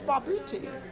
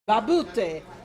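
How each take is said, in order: First: The name is said with an English pronunciation. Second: The name is said with an Italian pronunciation. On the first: "I'm a Brit, so it's Barbuti" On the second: "It has to be the right way"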